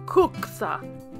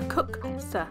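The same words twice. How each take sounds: First: It is said in a Scandinavian-style accent. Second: It is said in the speaker's plain accent.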